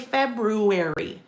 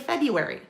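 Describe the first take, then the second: First: The first R sound is clearly pronounced. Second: The first R sound is left out. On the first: "We don't say February" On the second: "we drop the first R in February. We say February"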